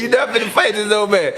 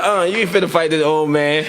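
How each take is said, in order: First: Repeating grandma's line, higher and laughing through it; retelling grandma while cracking up; laughing grandma quote. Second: Said in the usual way. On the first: Retold or imitated. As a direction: giggle out the retold scolding. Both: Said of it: "She was like".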